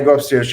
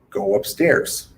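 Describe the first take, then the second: First: It is spoken quickly, steps run together. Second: It is spoken slowly, one step at a time. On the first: The instruction is harder for a child to take in. The speaker calls it wrong. "Different speeds" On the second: The instruction is easier for a child to take in. The speaker calls it right. "This might be speaking slower"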